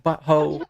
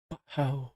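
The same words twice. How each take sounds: First: Said in the usual way. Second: BUTTHOLE under the breath, much softer; quieter. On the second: Acted. Girl repeats it so only her idol hears, hushed. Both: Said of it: "she says it quieter this time".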